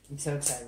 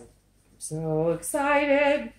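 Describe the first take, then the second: First: Said in the usual way. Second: High, loud, stretched-out squeal of excitement; slow, high sing-out of excitement; excited. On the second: Real, not acted. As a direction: draw it out with giddy glee.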